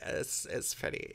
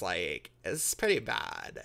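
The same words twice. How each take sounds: First: Hushed, breathy aside; whispering. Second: Said in the usual way. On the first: Real, not acted. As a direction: whisper it like a secret. Repeats the verdict in a whisper.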